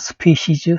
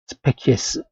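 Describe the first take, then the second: First: It has a soft s sound in the middle. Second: It has a hard k sound in the middle. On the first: This is the English way of reading it. "이걸 영어 발음으로 그냥 스피시즈 할 뿐이에요" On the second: This is the original Latin form. "라틴어로 이건 단수예요"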